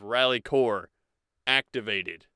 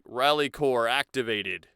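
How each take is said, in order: First: It is said with a gap inside the phrase. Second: It is said as one phrase without a gap. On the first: The speaker calls it wrong. "instead of" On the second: The speaker calls it right. "one phrase like"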